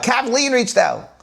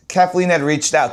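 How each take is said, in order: First: Higher, stressed KATHLEEN; excited repeat. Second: Said in the usual way. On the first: Acted. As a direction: jump up on Kathleen as if amazed.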